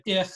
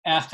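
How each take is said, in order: First: Said in the usual way. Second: ECH with an open e as in bed; Warsaw dialect form. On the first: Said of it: "instead of ich". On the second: Shown as a demonstration. Teacher contrasting dialects, open-vowelled ECH. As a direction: say "Ech" with e, ending in a throaty ch. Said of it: "the Warsaw Polish dialect".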